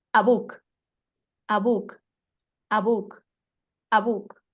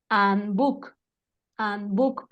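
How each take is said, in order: First: "a book" said run together as one sound; todo junto. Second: "and book" split into two separate beats; dos segundos. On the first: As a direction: say "a book" in one beat, no gap between the words. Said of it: "y va a sonar". ("a book" todo junto, en un solo golpe) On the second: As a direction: close off "and", then start "book" apart. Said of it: "Siguen siendo dos segundos". ("and book" separado en dos tiempos) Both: Shown as a demonstration.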